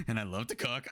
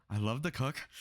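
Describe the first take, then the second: First: Mock date line. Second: Mocking imitation. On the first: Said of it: "the bitch goes like". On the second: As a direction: parrot her line in a stiff, put-on voice. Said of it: "why do you talk like this".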